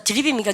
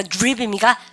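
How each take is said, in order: First: "드립입니까" starting deu-rip; Koreanized DR. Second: "드립입니까" starting joo-rip; English DR sound. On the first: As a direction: keep a plain deu syllable in "드립입니까". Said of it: "D하고 R 발음이 있으면". ("드립입니까"를 한국식 '드립'으로) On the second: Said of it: "디알은 뭐야". ("드립입니까"를 '주립'처럼 발음) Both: Shown as a demonstration.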